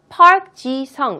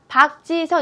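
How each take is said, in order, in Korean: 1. 이 이름은 영어식 발음으로 말합니다. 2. 이 이름은 한국식 발음으로 말합니다. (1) "영어식으로 읽는 그대로 읽어주시는 게" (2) "박지성 이렇게 읽지 말고"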